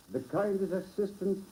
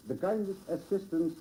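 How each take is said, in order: Both takes have the same delivery.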